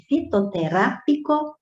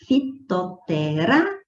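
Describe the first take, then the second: First: Said in the usual way. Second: Fitoterápico syllable by syllable, RÁ rising; stress on RÁ. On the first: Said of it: "então, vamos lá". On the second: Shown as a demonstration. Teacher showing the tonic syllable, stressed RÁ in fitoterápico. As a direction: sound out fitoterápico, lift and hold RÁ before finishing. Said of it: "veja que o ra é a sílaba tônica".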